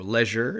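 It is said with a British pronunciation.

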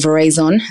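The name has an English pronunciation.

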